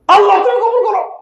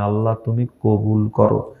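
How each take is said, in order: First: It is said as a loud shout. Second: It is said tenderly, with love.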